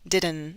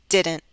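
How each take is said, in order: First: The final T is left out entirely. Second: The final T is cut off sharply. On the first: The speaker calls it wrong. "If I drop the T, this would sound like didn't" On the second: The speaker calls it right. "With a glottal stop"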